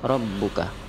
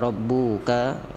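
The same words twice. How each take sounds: First: Every vowel in the word is kept short. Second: One vowel in the word is drawn out long. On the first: The speaker calls it right. "Rabbuka pendek semuanya" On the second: The speaker calls it wrong. "Jangan kita baca rabbuka"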